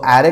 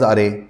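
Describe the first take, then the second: First: The first vowel is an open 'a' sound. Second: The first vowel is a short 'uh' sound. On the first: The speaker calls it right. "That is ॲरे pronunciation" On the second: The speaker calls it wrong. "काही लोक म्हणतात what is अरे"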